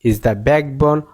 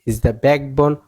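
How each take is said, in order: Both takes have the same delivery.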